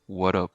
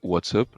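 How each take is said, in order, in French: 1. Le T est prononcé comme un D. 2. Le T est prononcé clairement, comme écrit. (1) "Prononcer le T comme si c'était un D" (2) "normal, comme il s'écrit"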